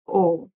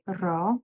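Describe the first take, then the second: First: The particle is said as a bare 'o'. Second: The particle is said as full 'ra'. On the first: This is a further reduced spoken form. "it's further reduced to just o" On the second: This is the formal form. "In more formal speaking, we also say ra"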